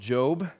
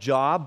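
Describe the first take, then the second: First: The vowel is long, rhyming with 'robe'. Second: The vowel is short, rhyming with 'rob'. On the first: This is how the name is actually pronounced. The speaker calls it right. "but you pronounce it Job" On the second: This is how the name looks from its spelling. The speaker calls it wrong. "It looks like Job"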